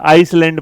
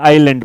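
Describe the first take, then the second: First: An s sound is heard in the middle. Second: No s sound is heard in the middle. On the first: The speaker calls it wrong. "नए नए अंग्रेज होंगे तो इसे आइसलैंड पढ़ेंगे" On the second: The speaker calls it right. "अगर हम perfect वाले तो आइलैंड पढ़ेंगे"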